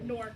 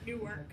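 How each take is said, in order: First: The name is pronounced the way locals say it. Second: The name is pronounced the way outsiders say it. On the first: The speaker is from there. The speaker calls it right. "you only know somebody's from Newark if they say like" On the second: The speaker is not from there. The speaker calls it wrong. "not Newark"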